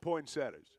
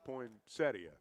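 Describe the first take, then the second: First: It is said the everyday, casual way. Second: It is said the careful, full way. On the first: This is how the speaker usually says it. The speaker calls it wrong. "I always called them poinsettias" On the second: This is the standard pronunciation. The speaker calls it right. "the correct pronunciation's poinsettia"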